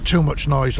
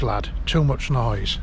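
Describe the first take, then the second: First: A touch louder, mock gruff; retold grumble, first time; old man's retort. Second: Said in the usual way. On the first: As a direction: hit the first "Too" a bit harder and louder. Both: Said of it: "And he says".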